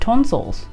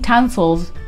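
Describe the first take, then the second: First: It is said in an imitated local British accent. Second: It is said in the speaker's own accent. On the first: This is how local people say it. "they call it tonsils" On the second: This is how the speaker normally says it. "whilst I'm saying tonsils"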